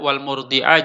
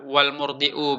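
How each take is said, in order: First: The final word ends with an 'a' vowel. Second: The final word ends with a 'u' vowel. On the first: The mother sleeps in accompaniment, as an object of accompaniment. "Kalau kata baca wal murdi'ah, maka ini berbeda hukumnya" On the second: The mother is a second subject joined to the child. "kalau kita baca wal murdi'u berarti ini kita atofkan kepada at-tiflu"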